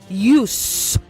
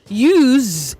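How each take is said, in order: First: The word is pronounced in its noun form. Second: The word is pronounced in its verb form. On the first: It names the thing or purpose. "Use is a noun" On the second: It names the action of using. "Use is a verb"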